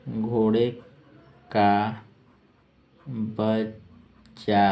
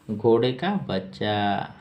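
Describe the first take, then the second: First: घोड़े, का, बच्चा one by one with long pauses; slow dictation. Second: Said in the usual way. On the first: Shown as a demonstration. Teacher dictating the meaning of colt, word by word. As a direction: draw out बच्चा, split in two.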